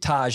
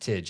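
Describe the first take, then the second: First: The ending sounds like 'tahj' with an open vowel. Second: The ending sounds like 'tidge' with a short vowel. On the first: This is the official pronunciation. "Taj is how you're supposed to pronounce it" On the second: This is how locals say it. "Tidge, I think, is how Chicagoans do it"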